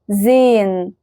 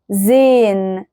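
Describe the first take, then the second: First: The h is silent and the vowel is lengthened. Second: The same.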